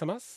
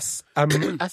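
First: The letters are said smooth and flowing together. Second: The letters are said choppy and separated. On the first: The speaker calls it right. "Det er mer som et kjærtegn" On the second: The speaker calls it wrong. "det er veldig sånn stakkato og oppstykket"

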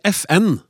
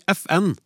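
First: The stress is on the letter N. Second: The stress is on the letter F. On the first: "med trykk på N" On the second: "med trykk på F"

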